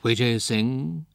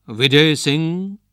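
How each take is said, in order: First: Slow, drawn-out ghostly calling of a name; eerie ghost call. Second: Slow ghostly call, pitched higher and louder; louder, higher ghost calling the name again. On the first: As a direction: call his name slowly from the dark. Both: A narrator's reading. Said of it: "he heard a voice".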